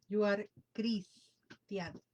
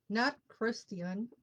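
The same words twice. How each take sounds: First: Christian said the Spanish way, slowly. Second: Christian said the English way, hard K; not Christian with an English K; wrong English way. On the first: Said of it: "That's the Spanish language". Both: Shown as a demonstration.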